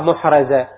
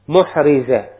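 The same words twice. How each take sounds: First: The r is followed by an a vowel. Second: The r is followed by an i vowel. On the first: The speaker calls it wrong. "لا تقراها محرزة" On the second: The speaker calls it right. "محرزة بكسر الراء"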